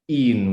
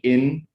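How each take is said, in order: First: The vowel is a tenser ee-like sound. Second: The vowel is a lax English short i. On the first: The speaker calls it right. "It's more like in with the e" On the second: The speaker calls it wrong. "it's not really like the word in English, like in"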